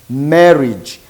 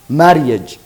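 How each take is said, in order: First: The vowel before the final -ge is silent. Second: The vowel before the final -ge is sounded. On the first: The speaker calls it right. "We say marriage. This A is silent" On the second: The speaker calls it wrong. "here we don't pronounce it as a marriage"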